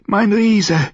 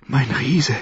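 First: High, loud ecstatic cry. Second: Said in the usual way. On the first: Acted. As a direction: cry it out at the peak. Repeated cry during lovemaking.

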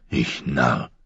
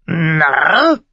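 First: Said in the usual way. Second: Hoher, lauter Rabenschrei mit steigender Frage; Narr? hoch und schrill wie ein Rabe krächzen; krächzender Rabe. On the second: A narrator's reading. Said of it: "gab der Rabbi ihm recht". (der Rabe äfft Mormont nach: Narr? hoch krächzend)

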